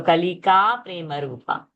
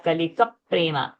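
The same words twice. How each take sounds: First: "Kalika" with long final a, single p in "prema"; long vowel, undoubled. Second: "Kalika" with short final a, doubled p into "prema"; short vowel, doubled consonant. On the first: Teacher showing the correct dirgha, "Kalika" ending long before "prema". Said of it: "we are not making dvitva because it's a dirgha sound". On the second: Teacher showing a hypothetical dvitva, "Kalika" short, p of "prema" doubled. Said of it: "there was no a ki matra". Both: Shown as a demonstration.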